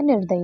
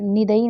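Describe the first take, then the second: First: निर्दयी with a clear r, as nir-da-yi; निर्दयी with the r, the right form; correct form said aloud. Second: निदयी said as ni-da-yi, with no r; निदयी without the r, the wrong form; wrong form said aloud. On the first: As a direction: sound the r in निर्दयी. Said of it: "निर्दयी होता है". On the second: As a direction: drop the r in निदयी. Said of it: "निदयी नहीं होता है". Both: Shown as a demonstration.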